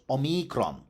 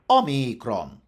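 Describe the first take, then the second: First: The stress is on the second syllable. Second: The stress is on the first syllable. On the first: This is the stress that Latin rules required. "had to be stressed on the second last syllable" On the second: This is the original Greek accentuation. "Omicron turned out to have been stressed on the first syllable"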